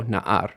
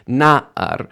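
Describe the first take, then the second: First: Na'ar with the weight on the second syllable; light first syllable, stress AR in na'ar; wrong final stress. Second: Na'ar with a high, firm NA; first-syllable stress. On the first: Teacher quoting her own slip, final stress on na'ar. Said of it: "not like I just said". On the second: Teacher correcting her slip, first-syllable stress on Na'ar. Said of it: "emphasis is on that first syllable". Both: Shown as a demonstration.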